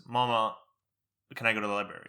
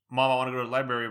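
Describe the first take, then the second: First: "Mama" with an English-tinged Arabic accent; lightly accented Arabic word in English. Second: Said in the usual way. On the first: Shown as a demonstration. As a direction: let a slight accent land on Arabic "Mama". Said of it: "that weird accent on the Arabic". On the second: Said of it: "my accent comes out like".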